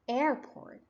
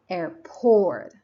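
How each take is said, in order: First: The stress is on the first syllable. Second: The stress is on the second syllable. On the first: The speaker calls it right. "the stress is on the first syllable" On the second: The speaker calls it wrong. "If I try to pronounce the second syllable more strongly"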